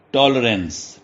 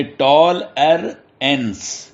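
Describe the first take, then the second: First: Said in the usual way. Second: "ٹال ار اینس" slowly, three beats with gaps; syllable by syllable. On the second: Shown as a demonstration. Teacher showing three syllables to students, "ٹال ار اینس" slowly split. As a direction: separate "ٹال ار اینس" into tol, er, ence. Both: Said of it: "یہ تین اس کے syllable بن گئے".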